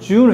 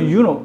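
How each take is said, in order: First: The name begins with a J sound. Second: The name begins with a Y sound. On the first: This is how people commonly call it. "우리가 어, 주노라고 하는데" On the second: This is the proper pronunciation. "발음은 유노입니다"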